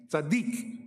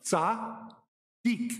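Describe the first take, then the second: First: Said in the usual way. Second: Tzaddik slow, with a ts sound at the start; Hebrew pronunciation tzaddik. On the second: Shown as a demonstration. Teacher modelling tzaddik for the class. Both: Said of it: "Like the first one".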